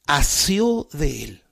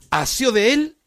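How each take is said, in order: First: "asió de él" drawn out very slowly, weight on "asió"; dwelling on the word. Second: "Asió de él" raised high and louder, "él" rising; emphatic repeat. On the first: Preacher lingering on a beloved scripture word, slow and stressed. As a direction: savour "asió", stretching each word. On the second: Preacher proclaiming the word to the congregation, high and emphatic. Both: Shown as a demonstration. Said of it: "esta palabra que la usa la Escritura".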